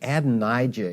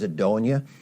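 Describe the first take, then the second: First: The name is said with a 'j' sound. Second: The name is said without a 'j' sound. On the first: The speaker calls it wrong. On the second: The speaker calls it right.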